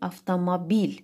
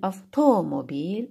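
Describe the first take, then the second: First: The stress is on the fourth syllable. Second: The stress is on the second syllable.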